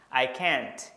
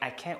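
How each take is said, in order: First: The final t sound is clearly heard. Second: The final t sound is barely heard. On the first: "jadi can kalau yang negatif itu ada t suaranya" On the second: "Dalam kecepatan yang normal ngomongnya mungkin nggak terlalu terdengar t-nya"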